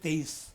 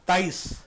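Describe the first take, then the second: First: The first vowel sounds like 'ay'. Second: The first vowel sounds like 'ah'. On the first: The speaker calls it right. "लफ्ज़ है तेईस" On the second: The speaker calls it wrong. "वो कहती है ताईस, मैं ये परेशान होता हूँ"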